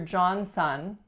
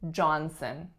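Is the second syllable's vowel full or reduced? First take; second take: full; reduced. First: The second syllable has a full vowel, like son. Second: The second syllable has a reduced schwa vowel. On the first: The speaker calls it wrong. "But we do not say, this is Mister Johnson" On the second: The speaker calls it right. "We reduce that second syllable to schwa"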